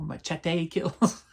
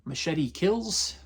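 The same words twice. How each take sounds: First: Machete said "mah-CHET-ay", with a ch sound; Spanish-style pronunciation. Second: Machete said "muh-SHET-ee", with an ee ending; anglicized pronunciation. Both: Shown as a demonstration. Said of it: "however you want to pronounce it".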